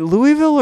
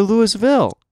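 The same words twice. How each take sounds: First: Louisville with a clear "ee" in the middle; Louisville as LOO-ee-vill. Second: Louisville like the name Lewis plus "ville"; Louisville as LOO-is-vill. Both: Shown as a demonstration. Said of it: "Is it Louisville or Louisville?".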